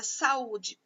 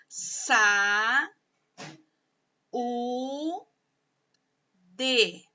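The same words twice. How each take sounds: First: Said in the usual way. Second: "sa, u, de" long drawn out, with pauses between; slowly, syllable by syllable. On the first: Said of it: "quando você fala a palavra". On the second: Shown as a demonstration. Teacher showing pupils how saúde divides, slow syllable by syllable. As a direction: sound out "saúde" as three held, separate syllables. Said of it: "pausadamente, sílaba por sílaba".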